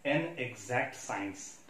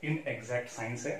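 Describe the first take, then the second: First: Exact science drawn out very slowly, word by word; stressing exact science. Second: Inexact said very slowly, with weight on the In; slow down and lean on Inexact to correct the point; stress on Inexact. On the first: ("an exact science" बहुत धीरे, हर शब्द पर ज़ोर देकर) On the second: ("Inexact" बहुत धीरे, "In" पर ज़ोर देकर) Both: Shown as a demonstration.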